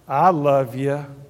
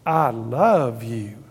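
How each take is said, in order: First: It is said reluctantly, out of obligation. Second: It is said warmly, with sincere feeling. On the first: The speaker feels obliged to say it. The speaker calls it wrong. "when you felt like you had to say it" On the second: The speaker truly means it. The speaker calls it right. "The second one, you really mean it"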